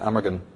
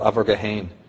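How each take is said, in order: First: The name is said with its English pronunciation. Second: The name is said with its Irish pronunciation. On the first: "in English you pronounce it Amergin" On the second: "was called Abergahain"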